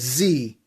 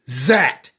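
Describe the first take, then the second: First: The letter is said with a final ee vowel. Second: The letter is said with a short e and final consonant. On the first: This is the American way. "the United States they pronounce the word Z as Z" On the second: This is the British, Australian and New Zealand way. "The British, along with the Australians and and the Kiwis ... they pronounce Z as Zat"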